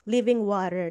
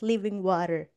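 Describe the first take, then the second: First: It is said in plain Filipino-accented English. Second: It is said in an imitated Western accent.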